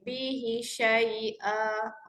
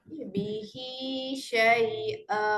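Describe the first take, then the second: First: The final vowel of bihi is cut short. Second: The final vowel of bihi is held two beats. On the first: The speaker calls it wrong. "kalau saya baca pendek" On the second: The speaker calls it right. "bacaan dia dua harakat sahaja, tak boleh pergi lebih"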